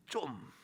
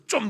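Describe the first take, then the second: First: Soft, gentle smiling nudge. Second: Short, sharp scowling rebuke. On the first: Preacher shows the kind way to say it, smiling. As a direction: say it lightly through a smile. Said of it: "막 웃으면서". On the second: Preacher shows the wrong way to say it, scowling. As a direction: say it with a hard frown. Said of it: "인상 팍 쓰면서". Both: Shown as a demonstration.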